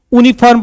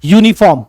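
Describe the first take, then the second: First: यूनिफॉर्म said "OO-ni-farm", with no Y; यूनिफॉर्म misread as "oonifarm"; mistaken reading. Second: यूनिफॉर्म said "YOO-ni-form"; यूनिफॉर्म with "yoo" as its first sound; correct Y onset. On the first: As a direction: leave the Y off यूनिफॉर्म, starting on "oo". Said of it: "इसलिए यूनिफॉर्म नहीं पढ़ना". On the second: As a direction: open यूनिफॉर्म on a clear Y glide. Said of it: "क्या पढ़ोगे". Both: Shown as a demonstration.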